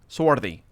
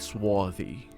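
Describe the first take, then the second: First: The R after the vowel is pronounced. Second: The R after the vowel is dropped. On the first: "I go with the R's" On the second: "I don't say swarthy"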